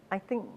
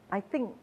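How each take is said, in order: Both takes have the same delivery.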